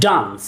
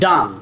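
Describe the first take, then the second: First: The vowel is open and back, as in car. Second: The same.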